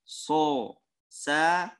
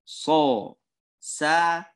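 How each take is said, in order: The two takes are said the same way.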